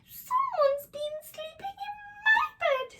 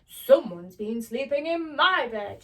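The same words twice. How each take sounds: First: It is said in a small, squeaky voice. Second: It is said in a big, booming voice.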